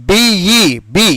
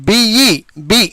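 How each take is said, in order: The two takes are said the same way.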